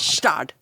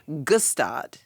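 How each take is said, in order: First: It begins with an S sound, no G. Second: It begins with a hard G sound. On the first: This is the proper way to say it. The speaker calls it right. "but it's Stad" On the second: This is how the spelling looks. The speaker calls it wrong. "it looks like Gustad"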